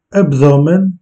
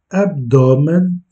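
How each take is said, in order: First: Abdomen said the Portuguese way, rising; Portuguese word. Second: Abdomen said slowly, each syllable clear; slow repeat. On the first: Teacher models Portuguese abdomen, Portuguese pronunciation. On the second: Teacher repeats abdomen slowly for learners, careful pronunciation. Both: Shown as a demonstration. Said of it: "modelling Portuguese word".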